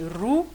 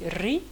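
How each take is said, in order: First: The vowel is said with a rounded u sound. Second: The vowel is said with a high i sound. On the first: "certaines personnes vont prononcer ru" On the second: "vont prononcer ri"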